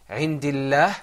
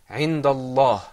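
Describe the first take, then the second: First: The L sound is light and thin. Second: The L sound is heavy and full.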